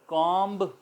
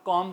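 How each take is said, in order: First: The word ends with an audible b sound. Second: The word ends on m with no b. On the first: "कॉम्ब बोला जाना चाहिए" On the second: "मगर हम उसको हम कॉम कहते हैं"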